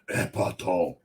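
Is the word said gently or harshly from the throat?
harshly. The word is said harshly, straining the throat.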